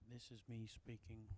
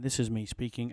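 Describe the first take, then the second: First: It is spoken at a normal volume. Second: It is spoken at a higher volume.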